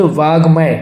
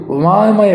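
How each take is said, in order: First: वाग्मय with a clear g; correct pronunciation. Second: वामय with the g left out; wrong pronunciation. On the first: Teacher correcting the word, वाग्मय with g before m. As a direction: say वाग्मय as "vaag-may". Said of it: "जबकि होना चाहिए". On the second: Teacher reading the misspelling, वामय without any g. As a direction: say वामय as "vaa-may". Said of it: "जबकि होना चाहिए वाग्मय". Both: Shown as a demonstration.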